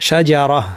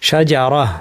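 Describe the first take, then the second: Both takes have the same delivery.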